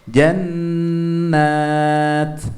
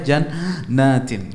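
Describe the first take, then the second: First: The word stops short on the -at. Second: The word ends with a full -in ending. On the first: The reader stops at this point. The speaker calls it right. "kita harus wakaf, berhenti" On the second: The reader carries on instead of stopping. The speaker calls it wrong. "nggak boleh"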